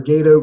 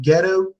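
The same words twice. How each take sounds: First: Long AY in Gedo, then "doh"; corrected pronunciation. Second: Short E in Gedo, as in "get-oh"; first pronunciation. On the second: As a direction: say Gedo as GEH-toh. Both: Shown as a demonstration. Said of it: "Japanese pronunciation".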